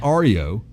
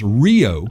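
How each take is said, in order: First: It is said as three syllables, starting with ar. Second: It is said as two syllables, like Rio. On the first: The speaker calls it wrong. "not Ario" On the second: The speaker calls it right. "It's it's pronounced Rio"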